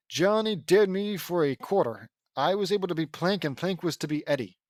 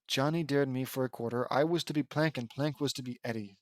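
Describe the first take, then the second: First: Animated take of a character's line; character reading. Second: Softer, toned-down delivery; subdued reread. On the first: Acted. Ed explains dare for a quarter, animated character voice. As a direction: read it out in character, with fuller voice. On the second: Real, not acted. Reader repeats Johnny's dare line, subdued and softer. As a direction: drop the act and read it through quietly.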